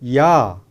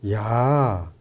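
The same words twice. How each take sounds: First: It sounds startled and angry. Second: It sounds light and teasing. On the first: The speaker is shocked and upset. "이러면은 굉장히 놀랍고 화가 난 거죠" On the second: The speaker is joking around. "이러면 조금 장난스럽기도 하잖아요"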